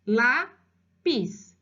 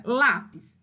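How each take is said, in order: First: Slow LÁPIS split into lá-pis; syllable by syllable. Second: Said in the usual way. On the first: Shown as a demonstration. Teacher demonstrating how he read it, syllable by syllable. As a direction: say LÁPIS in two separate beats. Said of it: "Ele leu exatamente silabado".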